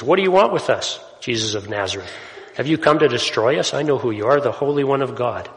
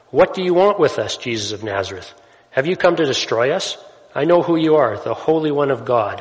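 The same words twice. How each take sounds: First: Demon blurting out. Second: Loud, high demonic cry at Jesus; demon yelling. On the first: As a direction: cry out like a possessed man. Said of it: "this demon just blurts out to Jesus". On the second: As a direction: shout it out like a possessed man. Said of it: "this guy's yelling at Jesus". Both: Acted.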